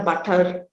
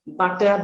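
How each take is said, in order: First: "butter" with the r sounded at the end; pronounced final r. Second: Said in the usual way. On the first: Shown as a demonstration. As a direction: finish "butter" on a curled r. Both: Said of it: "articulation of the r sound".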